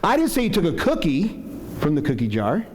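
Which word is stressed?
cookie. The stress falls on the word cookie. Something other than a cookie was taken. "Accusing you of taking candy or something else"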